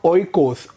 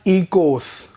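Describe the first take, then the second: First: The word begins with a different vowel. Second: The word begins with an ee vowel. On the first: The speaker calls it wrong. "not oikos" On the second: The speaker calls it right. "pronounced as ecos, as in E E K O S"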